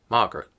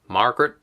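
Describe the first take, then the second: First: The r sounds after vowels are silent. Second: The r sounds after vowels are pronounced.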